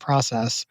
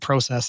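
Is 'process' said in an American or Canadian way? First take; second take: American; Canadian. First: It is said with an American pronunciation. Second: It is said with a Canadian pronunciation. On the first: The speaker has adapted to living elsewhere. "I say process" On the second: This is how the speaker used to say it. "I don't say process anymore"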